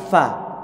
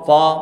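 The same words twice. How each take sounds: First: The syllable is said light and thin. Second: The syllable is said heavy and dark. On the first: The speaker calls it right. "Fa ini dibaca tipis" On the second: The speaker calls it wrong. "nggak boleh dibaca fa"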